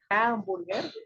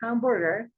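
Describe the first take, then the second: First: It has a strong, marked Spanish accent. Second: It sounds close to a native English pronunciation. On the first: The listener understood it perfectly. "como si muy notado el acento" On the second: The listener pretended not to understand it. "creo que muy cercano a como pronuncia una persona nativa del inglés"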